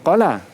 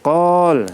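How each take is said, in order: First: The word ends with a final vowel sound. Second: The word ends on a bare consonant. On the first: The speaker calls it wrong. "bukan qala" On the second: The speaker calls it right. "tapi qal, sebab dia berhenti waqaf"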